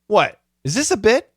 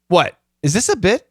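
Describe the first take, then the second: First: The pause comes after "what". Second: The same.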